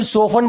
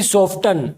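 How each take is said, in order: First: The t sound in the middle is silent. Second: The t sound in the middle is pronounced. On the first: The speaker calls it right. "इसे हम सोफन बोलेंगे, T silent रहेगा" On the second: The speaker calls it wrong. "ना कि सॉफ्टन"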